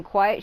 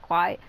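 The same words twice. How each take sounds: First: Said in the usual way. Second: Quiet with the character's unplaceable accent; character's odd pronunciation of quiet. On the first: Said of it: "instead of saying quiet". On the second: Shown as a demonstration. Echoing the game character's accent on one word. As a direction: copy how she says quiet. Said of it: "she said, like".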